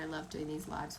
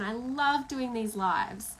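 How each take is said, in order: First: The voice sounds flat and unenthusiastic. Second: The voice sounds lively and enthusiastic. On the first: The tone contradicts the excited words. The speaker calls it wrong. "Does it sound like the words that I'm saying match up? No" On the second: The tone matches the excited words. The speaker calls it right. "vocally I'm so excited"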